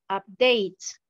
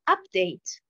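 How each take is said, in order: First: The stress is on the second syllable. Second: The stress is on the first syllable. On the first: It is a verb. "la première colonne, pratiquement, j'ai l'accentuation sur la deuxième syllabe" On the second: It is a noun. "la deuxième colonne, nous avons l'accentuation sur la première syllabe"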